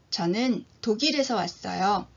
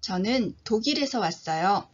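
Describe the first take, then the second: No difference in how they are said.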